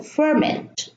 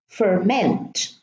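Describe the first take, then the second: First: Ferment stressed on the second syllable, fer-MENT, slow; verb stress. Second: Ferment stressed on the first syllable, FER-ment, falling; noun stress. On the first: Teacher giving the verb ferment after the noun. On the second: Teacher showing noun versus verb stress. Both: Shown as a demonstration. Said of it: "depends on whether the word is a noun or is a verb".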